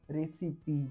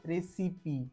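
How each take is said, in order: The two takes are said the same way.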